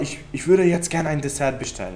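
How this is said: The sentence is said in a harsh, curt tone. The request comes across as unfriendly. The speaker calls it wrong. "Não me parece tão amigável"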